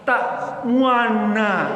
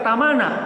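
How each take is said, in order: First: The middle sound is said with rounded lips. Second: The middle sound is said with plain lips. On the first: The speaker calls it right. "monyong bibirnya nih" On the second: The speaker calls it wrong. "Bacanya orang yang nggak ngaji bacanya tamana, nggak begitu"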